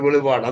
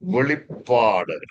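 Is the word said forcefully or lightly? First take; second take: lightly; forcefully. First: The word is said lightly, without weight. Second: The word is said forcefully, with weight. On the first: It makes the word sound unimportant. The speaker calls it wrong. "സഭകളൊക്കെ പറഞ്ഞ് ഞാൻ കേട്ടിട്ടുണ്ട്, ... അത് അങ്ങനെ പറയല്ല" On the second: It gives the word its power and glory. The speaker calls it right. "അതിനൊരു ശക്തിയുണ്ടെന്നേ"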